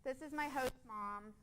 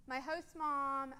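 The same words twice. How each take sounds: First: Said in the usual way. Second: "my host mom" slowed, each word leaned on; emphasis on host mom. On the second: Shown as a demonstration. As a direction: linger on "host mom" as a fond title. Repeats name with emphasis.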